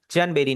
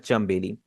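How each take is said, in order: First: चनबेली with a clear n before b; wrong version. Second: चंबेली with m before b, lips closed; right version. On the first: Teacher shows the wrong way to say the word: n kept in चनबेली. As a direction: say चनबेली keeping the n, the way it is not said. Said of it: "आप उसे चनबेली नहीं पढ़ रहे". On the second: Teacher shows the natural way to say the word: m sound in चंबेली. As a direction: say चंबेली letting n become m. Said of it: "आप उसे पढ़ रहे हैं चंबेली". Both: Shown as a demonstration.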